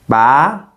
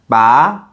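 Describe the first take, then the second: First: The pitch rises toward the end. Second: The pitch rises toward the end.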